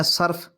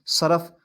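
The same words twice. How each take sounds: First: صرف with an a and no vowel before f; pronounced sarf. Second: صرف in two syllables, sa-raf; pronounced saraf. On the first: Teacher naming the grammar science, pronounced sarf. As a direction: say صرف as "sarf", one syllable with short a. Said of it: "اگر آپ اس کو پڑھتے ہیں". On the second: Teacher showing the soap word, pronounced saraf. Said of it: "صاد کے اوپر زبر ڈال دیں". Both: Shown as a demonstration.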